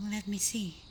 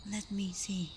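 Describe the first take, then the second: No difference in how they are said.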